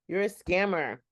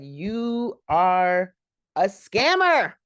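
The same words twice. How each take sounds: First: Said in the usual way. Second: Mock accusation, "scammer" hit much higher and louder; snapped accusation. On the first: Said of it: "She said". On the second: Ada confronting the fake medium, louder mock snap. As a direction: call the medium out, punching "scammer" up high. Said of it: "but she snapped".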